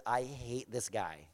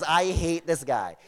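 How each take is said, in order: First: Low, very quiet, slow grumble; grudging confession. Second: Slow, understated grudge; grudging admission. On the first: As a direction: confess it under your breath, dragging it out. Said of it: "he says". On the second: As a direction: repeat the confession slowly, for emphasis. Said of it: "He says". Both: Retold or imitated.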